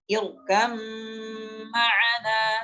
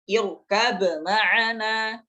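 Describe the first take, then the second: First: The b merges fully into a doubled m. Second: The b is released with a bounce before m. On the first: The speaker calls it right. "yang benar adalah diidghamkan" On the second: The speaker calls it wrong. "Tidak boleh dibaca irkab ma'ana. Ini bacaan yang keliru"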